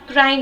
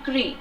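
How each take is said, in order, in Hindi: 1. स्वर 'eye' जैसा सुनाई देता है। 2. स्वर 'see' जैसा सुनाई देता है। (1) "cry नहीं" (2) "इसका pronunciation होगा Cree"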